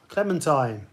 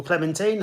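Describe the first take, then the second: First: "Clementine" with last syllable rhyming with "fine"; clementine ending in "tine". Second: "clementine" with last syllable rhyming with "seen"; clementine ending in "teen". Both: Shown as a demonstration. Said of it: "however you want to pronounce it".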